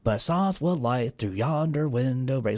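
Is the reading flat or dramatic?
flat. It is read in a flat, bored way.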